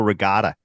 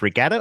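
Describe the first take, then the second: First: "regatta" with a long AH in the middle; "regatta" with a broad, open second vowel; pronunciation variant. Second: "regatta" with the American flat middle A; "regatta" rhyming its middle with "hat"; pronunciation variant. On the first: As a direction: say regatta as "re-GAH-ta". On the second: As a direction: say regatta the first way, as in "gat". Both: Shown as a demonstration. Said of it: "is it pronounced regatta or regatta".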